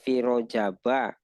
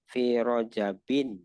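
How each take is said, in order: First: The word ends in a plain -a vowel. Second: The word ends in -in, with a final n. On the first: "Ada fi Rojaba" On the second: "saya cenderung membacanya rojabin"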